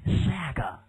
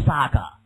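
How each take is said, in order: First: American English saga; US-style vowel in saga, drawn out; American pronunciation. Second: British English saga with open "ah"; British-style vowel in saga; British pronunciation. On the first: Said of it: "如果美式就称为". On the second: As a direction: say "saga" with a long British "ah" in the first syllable. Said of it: "British English, you read it as". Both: Shown as a demonstration.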